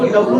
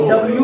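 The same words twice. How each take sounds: First: "डब्ल्यू" said as dab-loo, no y sound; wrong reading. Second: "डब्ल्यू" said as dabl-yoo, with a y glide; correct reading. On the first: Teacher showing students the wrong reading, dab-loo. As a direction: drop the y from "डब्ल्यू": dabloo. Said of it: "अब इसको डब्ल्यू नहीं पढ़ते". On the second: Teacher showing students the correct reading, dabl-yoo. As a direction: sound the y in "डब्ल्यू": dablyoo. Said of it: "डब्ल्यू पढ़ते हैं". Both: Shown as a demonstration.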